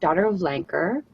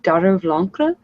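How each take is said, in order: First: The name is said with English pronunciation. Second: The name is said with French pronunciation. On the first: "so Anglicized, it would sound like" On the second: "if we go with the French accent"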